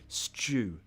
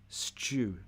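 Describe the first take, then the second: The two takes are said the same way.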